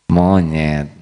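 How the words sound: It is said in a calm, gentle tone.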